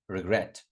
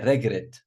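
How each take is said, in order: First: The stress is on the second syllable. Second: The stress is on the first syllable. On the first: The speaker calls it right. "we're going to put them on the second syllable" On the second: The speaker calls it wrong. "A lot of students say regret"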